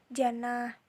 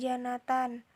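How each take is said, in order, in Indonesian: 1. Kata ini berakhir dengan bunyi h yang lembut. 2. Kata ini berakhir dengan t dan -an.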